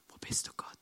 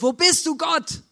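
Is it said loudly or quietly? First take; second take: quietly; loudly. First: It is whispered quietly. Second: It is shouted loudly.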